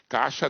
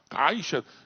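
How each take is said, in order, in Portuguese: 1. A primeira sílaba não tem semivogal i. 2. A primeira sílaba mantém uma semivogal i clara. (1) "a maioria fala caixa" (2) "você já tem que fazer um esforço"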